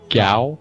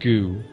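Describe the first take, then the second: First: The name is said with an 'ow' vowel. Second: The name is said with an 'oo' vowel. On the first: It is the proper way to say the name. The speaker calls it right. "I think you say his name Gao" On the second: It is a joke name used by friends. The speaker calls it wrong. "we always called him Goo"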